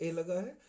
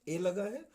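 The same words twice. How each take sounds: Both takes have the same delivery.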